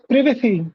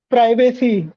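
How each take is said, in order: First: It is said the British way. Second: It is said the American way. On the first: "it has another pronunciation" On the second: "In America, they say"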